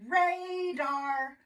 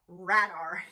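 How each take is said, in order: First: The first vowel is a long 'ay' sound. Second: The first vowel is a short 'ah' sound. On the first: The speaker calls it right. "this A is open. It's going to say A" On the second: The speaker calls it wrong. "If we want this A to be a short vowel sound, ah"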